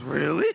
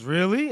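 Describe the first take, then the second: First: Lightly mock disbelief, breaking into laughter; echoed surprise. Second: Mild surprise, rising at the end; lightly acted disbelief on REALLY, lifting upward; surprised question. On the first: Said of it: "And Temple goes, "Really?". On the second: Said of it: "And Mahu goes, "Really?" And Temple goes, "Really?".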